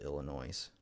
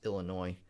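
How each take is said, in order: First: The word ends with an audible S sound. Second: The word ends without any S sound. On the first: The speaker calls it wrong. "My brother always calls it Illinois" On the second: The speaker calls it right. "I thought it was always Illinois. You're not supposed to say the S"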